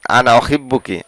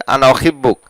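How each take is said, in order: First: অহিব্বুকি ending in a clear ki; form for a woman. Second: অহিব্বুক ending on a bare k; form for a man. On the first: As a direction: finish অহিব্বুকি on a crisp ki. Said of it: "যদি মহিলাদেরকে বলেন তাহলে এইভাবে বলবেন". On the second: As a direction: cut অহিব্বুক short on the k. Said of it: "পুরুষকে বললে". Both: Shown as a demonstration.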